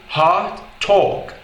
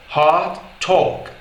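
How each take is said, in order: Both takes have the same delivery.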